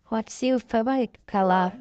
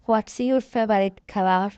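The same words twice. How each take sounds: The two takes are said the same way.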